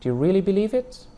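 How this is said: The rise is high in the speaker's pitch range.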